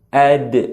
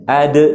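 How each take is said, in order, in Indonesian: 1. D terakhir punya gema yang ringan dan alami. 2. D terakhir punya gema yang dibuat-buat dan berlebihan. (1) "cara alami, yaitu lidah kita agak sedikit dibuka" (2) "membacakannya dengan cara dibuat-buat"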